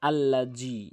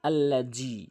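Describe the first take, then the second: No difference in how they are said.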